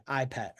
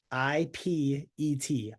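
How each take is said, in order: First: Said in the usual way. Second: I P E T spelled letter by letter, slowly; slow separate letters I, P, E, T. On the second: Shown as a demonstration. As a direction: spell out I P E T one letter at a time. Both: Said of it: "The I stands for invite".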